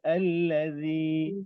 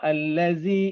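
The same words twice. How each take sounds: First: The 'z' sound is said light. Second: The 'z' sound is said heavy. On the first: The speaker calls it right. "Zi ringan zi" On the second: The speaker calls it wrong. "Banyak orang sebut salah"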